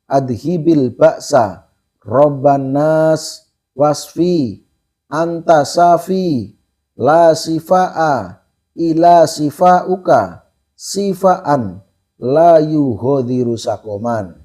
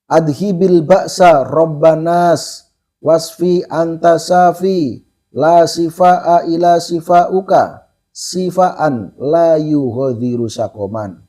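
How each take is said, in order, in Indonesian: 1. Dibaca dengan tempo lebih lambat. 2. Dibaca dengan tempo lebih cepat.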